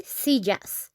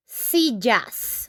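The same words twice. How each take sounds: First: Said in the usual way. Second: Slow plural demo. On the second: Shown as a demonstration. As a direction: spell out "sillas" slowly for the class. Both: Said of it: "We just add an S".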